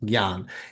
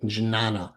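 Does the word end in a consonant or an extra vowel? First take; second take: consonant; extra vowel. First: It starts with a g sound and ends in n. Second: It starts with a j sound and ends in ah. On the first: The speaker calls it right. "that ah is extra, and the sound is more of a g" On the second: The speaker calls it wrong. "which doesn't give you the best pronunciation"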